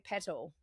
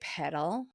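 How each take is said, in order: First: The middle T is pronounced clearly and crisply. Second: The middle T sounds soft, like a D. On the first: "in Australia, we say petal. We pronounce the T" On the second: "in American, they would say pedal"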